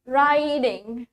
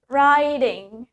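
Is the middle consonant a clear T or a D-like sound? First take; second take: D-like; D-like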